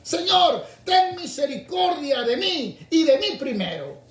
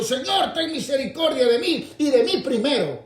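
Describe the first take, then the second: First: Señor pitched very high, louder; selfish plea. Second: High, louder plea for himself first; selfish plea. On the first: Preacher repeating the selfish prayer of many, higher plea. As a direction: cry Señor high, then stretch mí. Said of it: "hubiesen hecho lo mismo". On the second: Preacher mocking a selfish blind man's high plea. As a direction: beg Señor loudly, stretching mí. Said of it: "hubiera dicho". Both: Retold or imitated.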